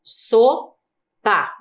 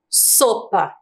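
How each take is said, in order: First: "Sopa" in two separate pieces, so, pa; split into syllables. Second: Said in the usual way. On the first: Shown as a demonstration. Teacher showing pupils where the S is, "Sopa" said syllable by syllable. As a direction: leave a pause inside "Sopa" after so. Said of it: "Duas sílabas". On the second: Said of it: "Nesta palavra aqui".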